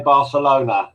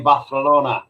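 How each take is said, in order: First: "Barcelona" with an s sound; English pronunciation. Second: "Barcelona" with a Castilian th for c; Spanish pronunciation. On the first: Co-host corrects how a city is said, "Barcelona" with English s. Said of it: "you wanted to say Barcelona". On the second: Co-host teases about Spanish cities, "Barcelona" said with th. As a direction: lisp the c in "Barcelona", as th. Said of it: "You mean Barcelona". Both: Shown as a demonstration.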